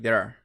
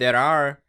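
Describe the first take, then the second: First: The words are run together and shortened. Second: Both words are said fully and separately.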